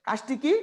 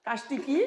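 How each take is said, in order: Both takes have the same delivery.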